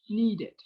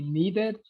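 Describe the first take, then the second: First: The ending is said with a short 'id' vowel. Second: The ending is said with a full 'ed' vowel. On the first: The speaker calls it right. "it's needed" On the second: The speaker calls it wrong. "No es decided ni needed"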